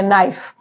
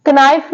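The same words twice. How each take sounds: First: नाइफ starting straight on n, k silent; नाइफ said softly with no k; correct pronunciation. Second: कनाइफ with the k sounded before n; कनाइफ said with a hard k at the start; wrong pronunciation. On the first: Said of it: "क्या पढ़ते हैं?". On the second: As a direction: mispronounce कनाइफ, k spoken. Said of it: "कनाइफ नहीं इसे पढ़ते". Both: Shown as a demonstration.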